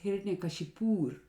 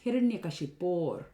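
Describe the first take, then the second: First: The word ends with the sound 'pur'. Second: The word ends with the sound 'por'. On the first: It means the golden city of Kashi. The speaker calls it wrong. "this is mispronounced as Hiranyakashipur, just like towns in India" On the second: It means of Hiranyakashipu. The speaker calls it right. "with Sandhi, it becomes Hiranyakashipor"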